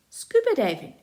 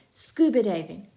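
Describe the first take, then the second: First: Much higher, loud disbelieving echo; incredulous repeat. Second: Loud shouted suggestion. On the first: Felix echoing Jake's idea in disbelief. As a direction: repeat it like you can't believe it. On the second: Jake shouting an idea to friends, loud. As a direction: jump up and call it out. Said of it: "Jake jumps up and shouts". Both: Acted.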